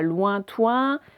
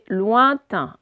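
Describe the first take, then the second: First: Both syllables use the 'oin' vowel sound. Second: The last syllable uses the 'in' vowel sound. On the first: The speaker calls it wrong. "c'est pas lointoin" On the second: The speaker calls it right. "c'est lointain, un de chaque"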